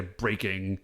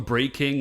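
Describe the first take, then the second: First: Said in the usual way. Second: Breaking with a full KING as its second half; pronounced like King. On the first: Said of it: "but I know it's". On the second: Shown as a demonstration. Podcaster giving his preferred name for the monster, Breaking pronounced like King. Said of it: "like, King".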